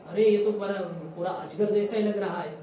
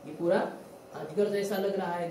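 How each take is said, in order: First: A louder, wide-eyed gasp of wonder; lightly voiced awestruck cowherd boy; amazed exclamation. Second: Said in the usual way. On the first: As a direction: call out the discovery as an astonished child. Cowherd boys exclaim at python.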